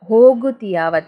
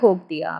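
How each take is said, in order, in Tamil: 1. முழுசா சொல்லப்படுது, எல்லா அசையும் இருக்கு. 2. சுருக்கமா சொல்லப்படுது, நடுவுல ஒரு அசை விழுந்திருக்கு.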